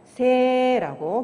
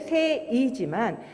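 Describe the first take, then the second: First: The vowel is one long e sound. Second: The vowel is e followed by a separate i. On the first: "새라고 길게 발음해 주시면 됩니다" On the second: "원래는 새이지만"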